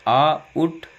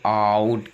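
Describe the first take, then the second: First: "आउट" slowly as आ ... उट; split pronunciation. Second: Said in the usual way. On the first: Shown as a demonstration. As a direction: break "आउट" after a long आ. ("आउट" को आ ... उट तोड़कर) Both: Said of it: "ओ जब आओ की ध्वनि में".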